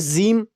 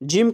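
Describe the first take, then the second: First: The word begins with a 'z' sound. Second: The word begins with a 'j' sound. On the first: The speaker calls it wrong. "ज़ीम तो नहीं बोल सकते ना" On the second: The speaker calls it right. "जिम को ज़ीम तो नहीं बोल सकते ना"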